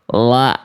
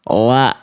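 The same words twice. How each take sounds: No difference in how they are said.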